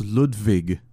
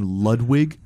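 First: Ludwig with a V sound; German-style Ludwig, V in place of W; German pronunciation. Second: Ludwig with an English W; anglicized Ludwig, "wig" at the end; English pronunciation. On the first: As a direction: say Ludwig as "Lood-vig". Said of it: "that's why it's". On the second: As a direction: say Ludwig as "Lud-wig", as it looks. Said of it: "you see the name Ludwig". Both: Shown as a demonstration.

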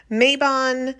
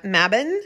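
First: Mabon said MAY-bon, long "ay" then "bon"; American pronunciation. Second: Mabon said MAB-un, short "a" as in cab, weak second syllable; British pronunciation. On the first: To podcast listeners, showing the US way: MAY-bahn. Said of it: "how people in the States pronounce it". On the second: To podcast listeners, showing the UK and Welsh way: MAB-un. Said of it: "oftentimes pronounced Mabon or Mab". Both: Shown as a demonstration.

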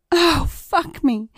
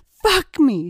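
First: High, slow, drawn-out fake ecstatic scream. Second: High loud fake ecstatic cry; loud staged cry of pleasure; screamed. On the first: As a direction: cry it out high and stretched as if in ecstasy. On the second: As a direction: shout it out to fool the man outside. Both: A narrator's reading. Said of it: "she screamed".

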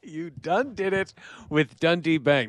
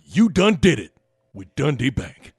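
First: A faint hint of the drawl; plain repeat of the catchphrase. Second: Lightly voiced drawling announcer catchphrase; Mark Jackson impression. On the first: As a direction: say it back almost flat. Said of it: "as I say it out loud". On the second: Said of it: "Mark Jackson were the spokesperson".

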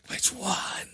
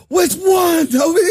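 First: Harsh whispered yell. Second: Loud high yell; shouting. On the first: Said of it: "Start whisper yelling". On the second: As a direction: bellow the question at him. Acted quarrel, mock confrontation. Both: Pretend.

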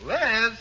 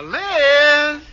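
First: Said in the usual way. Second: Louder, higher drawn-out call. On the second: Acted. Husband calls for his wife Liz, calling out. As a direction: raise the voice to summon her.

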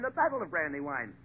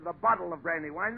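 First: "battle" said with a clear a, not "bottle"; lower, firm "battle" correcting the wrong word; correction. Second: Said in the usual way. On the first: Shown as a demonstration. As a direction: set him right on "battle". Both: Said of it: "Not the, not the".

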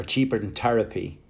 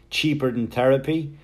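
First: Therapy said as Terapy with a hard t, Irish style; Therapy with a Wexford t-sound. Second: Therapy with a clear th, THeh-ruh-pee; Therapy said with a careful English th; TH pronounced. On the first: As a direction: drop the th, say Therapy like Tear-apy. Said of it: "But back home I go". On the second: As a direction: sound the th in Therapy fully. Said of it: "pronounce my T Hs". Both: Shown as a demonstration.

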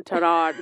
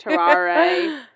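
First: Terrar said the English way, tuh-RAR; anglicized. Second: Terare said the French way, tar-AH-ray. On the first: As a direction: say Terrar as two flat syllables. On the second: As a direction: say Terare as three syllables, French style. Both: Shown as a demonstration. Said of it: "keep your story straight".

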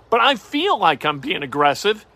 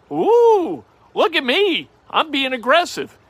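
First: Said in the usual way. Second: High, hammed-up ooh of self-congratulation; mock excited. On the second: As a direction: show off a tiny bet like it's daring. Mock self-hype over casino bet.

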